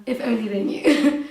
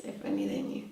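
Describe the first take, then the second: First: Louder, with a laugh breaking out at the end; laughing wryly. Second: Low, soft, trailing repeat; quiet afterthought. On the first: Guest hinting at her real life, laughing wryly. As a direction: joke knowingly through a laugh. Wry joke about her true self. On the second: Guest musing on what people miss, quiet afterthought. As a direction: let it sink down quietly. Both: Real, not acted.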